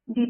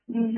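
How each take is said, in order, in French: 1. La consonne finale n'est pas prononcée. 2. Le mot finit par un son z. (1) "est moins euh, devant consonne" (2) "se prononce Z devant voyelle ou H"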